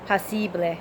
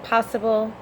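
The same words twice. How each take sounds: First: "posible" said the Spanish way, POH-see-bleh; Spanish pronunciation. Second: Said in the usual way. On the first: Shown as a demonstration. Learner showing the Spanish word, in Spanish pronunciation. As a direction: pronounce "posible" with Spanish vowels. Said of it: "would be in Spanish".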